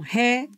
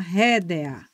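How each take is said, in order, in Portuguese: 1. As duas últimas vogais formam uma só sílaba. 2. As duas últimas vogais se separam em sílabas diferentes. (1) "como se tivesse um I e um A. Então, paroxítona em ditongo crescente" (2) "mas eu também posso falar rédea"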